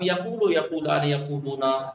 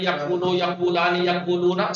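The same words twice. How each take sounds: First: Yaqulu with one smooth long u; eased yaqulu forms. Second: Yaqwulu with the waw sounded after a stopped qaf; unsimplified yaqwulu forms. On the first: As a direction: glide from qaf straight into long u in yaqulu. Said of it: "اب آسان ہو گیا". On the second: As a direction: keep the heavy q-w cluster in each yaqwulu form. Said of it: "سخت ہے". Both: Shown as a demonstration.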